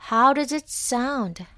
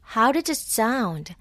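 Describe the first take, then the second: First: It is said slowly, word by word. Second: It is said quickly, words run together.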